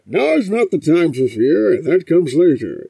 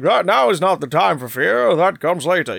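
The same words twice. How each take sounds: First: Loud, muffled masked-villain voice; Bane with mask filter. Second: Louder, unfiltered posh British villain; put-on RP British voice with the mask filter removed; Bane without the filter. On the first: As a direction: speak as if through a mask filter. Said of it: "You remove the filter". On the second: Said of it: "You remove the filter, and it's suddenly like". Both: Shown as a demonstration.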